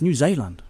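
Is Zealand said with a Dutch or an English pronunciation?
Dutch. Zealand is said with a Dutch-style pronunciation. The speaker calls it right. "It's New Zealand. It's a Dutch word"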